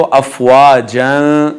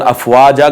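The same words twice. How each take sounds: First: अफवाजन ending in a sustained n; joined tanween ending. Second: अफवाजा ending in plain long aa; pausal ending. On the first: Teacher showing how to read on, joined tanween ending. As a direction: close अफवाजन on a nasal an. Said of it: "अगर मिला के पढ़ेंगे तो". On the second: Teacher showing how to stop here, pausal ending. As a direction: drop the n and stretch final aa of अफवाजा. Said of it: "वक़फ़ करेंगे तो". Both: Shown as a demonstration.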